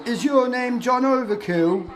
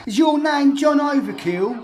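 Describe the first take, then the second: First: High, slow and louder mock question; mimicking Spectrum. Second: Higher and louder, laughing, slow; laughing mock repeat. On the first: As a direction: ham up the question in someone else's voice. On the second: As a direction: repeat it again, cracking up. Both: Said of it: "the one who Spectrum said".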